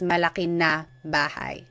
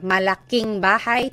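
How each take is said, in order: First: The linker is said as a separate word. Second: The linker is joined onto the adjective's end. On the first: "technically is" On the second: "we just made the contraction"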